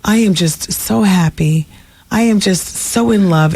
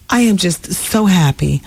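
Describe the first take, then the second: First: Slow, sing-song fake cheer; mock forced happiness. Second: Fake happy. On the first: Imitating the actress claiming joy while nodding no. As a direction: drawl the happy words like a forced smile. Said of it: "and she's nodding no". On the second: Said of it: "nodding no".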